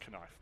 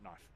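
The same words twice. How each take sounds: First: The K at the start is pronounced. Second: The K at the start is silent. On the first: The speaker calls it right. "She does pronounce the K" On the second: The speaker calls it wrong.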